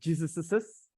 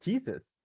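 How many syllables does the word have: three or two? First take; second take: three; two. First: The word ends with an extra added syllable. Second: The word ends without any extra syllable. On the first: The speaker calls it wrong. "it shouldn't sound like Jesus's" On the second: The speaker calls it right. "but just Jesus"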